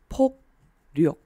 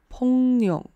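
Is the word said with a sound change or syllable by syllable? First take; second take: syllable by syllable; sound change. First: Each syllable is pronounced separately, without sound change. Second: The syllables merge with a sound change between them. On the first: "如果我们分开念的话是폭력" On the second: "2 个字合在一起的时候会有一个变音吧，所以听起来会是폭력"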